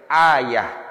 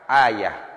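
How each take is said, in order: First: The word ends with an h sound. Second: The same.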